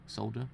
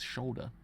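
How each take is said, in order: First: The word begins with an s sound. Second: The word begins with a sh sound. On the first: The speaker calls it wrong. "I want to say solder instead" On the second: The speaker calls it right. "it's the way it's pronounced. It's shoulder"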